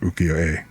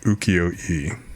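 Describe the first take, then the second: First: The word is said with Japanese-style sounds. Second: The word is said with English-style sounds. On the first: The speaker calls it right. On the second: The speaker calls it wrong.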